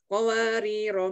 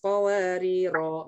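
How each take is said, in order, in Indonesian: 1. Vokal akhir setelah r dibaca pendek. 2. Vokal akhir setelah r dibaca panjang. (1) "dibacanya pendek" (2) "rohnya dibaca panjang"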